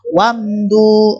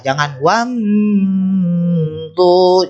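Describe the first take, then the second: First: The m sound is short and moves straight on. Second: The m sound is drawn out and lingering. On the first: The speaker calls it right. "langsung saja" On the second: The speaker calls it wrong. "jangan ya. Itu salah"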